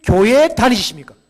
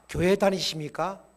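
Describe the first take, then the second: First: "교회 다니십니까?" called out much louder, 교회 hit hard; loud question. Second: Said in the usual way. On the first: Shown as a demonstration. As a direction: boom the question out. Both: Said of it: "전도의 문을 열는 하나의 질문법이".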